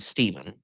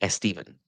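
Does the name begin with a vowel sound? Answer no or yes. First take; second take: no; yes. First: The name starts directly with the s sound. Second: An extra vowel is added before the s. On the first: "like the name Stephen" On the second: "can come out like Estevan"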